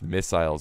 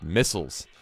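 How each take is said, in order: First: The word is said in a British accent. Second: The word is said in an American accent. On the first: "in the U K it's missiles apparently, which is just it just rolls off the tongue so much better" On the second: "In the U S we pronounce it missiles"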